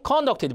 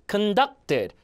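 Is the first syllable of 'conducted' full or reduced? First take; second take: full; reduced. First: The first syllable is full, not reduced. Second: The first syllable is reduced, stress on duct. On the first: The speaker calls it wrong. "그럼 무조건 감점입니다" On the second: The speaker calls it right. "강세가 없으면 으로 죽여놓고"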